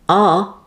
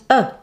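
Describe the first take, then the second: First: The word is said in its full strong form. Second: The word is said in its reduced weak form.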